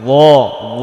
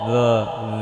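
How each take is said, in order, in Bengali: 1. শব্দটি ভারী, পুরো মুখ ভরে যায়। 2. শব্দটি হালকা, মুখ ভরে না। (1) "পুরোটা মুখ ভরে যেতে হবে। ল ল, মোটা হরফ তো।" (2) "এটা ল ল এমন বলা যাবে না।"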